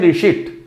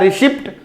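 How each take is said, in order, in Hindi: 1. अंतिम t से पहले p की कोई ध्वनि सुनाई नहीं देती। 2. अंतिम t से पहले p की ध्वनि सुनाई देती है। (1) "बोलते हैं रिसीट" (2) "लिखा हुआ रहता है रिसिप्ट"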